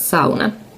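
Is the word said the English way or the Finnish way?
Finnish. The word is said with Finnish pronunciation. "but it's sauna"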